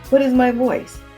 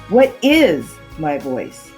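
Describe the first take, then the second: First: No word is given special emphasis. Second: The word 'is' is emphasized. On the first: "The first time, just speak plainly" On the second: "then the second word"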